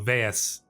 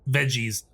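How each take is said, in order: First: The middle consonant is a throaty 'h' sound. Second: The middle consonant is an English 'j' sound. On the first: "pronounced like uh, you know the Spanish J" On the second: "I'm gonna call them veggies"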